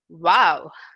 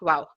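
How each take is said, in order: First: It is said with excitement and fascination. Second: It is said flatly, without much feeling.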